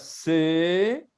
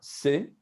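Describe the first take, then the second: First: The vowel is held longer. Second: The vowel is cut shorter.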